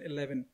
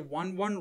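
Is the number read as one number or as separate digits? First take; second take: one number; separate digits. First: It is read as one combined number. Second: It is read as two separate digits. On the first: The speaker calls it wrong. "rather than 11" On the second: The speaker calls it right. "pronounced as individual two numbers rather than as combined numbers"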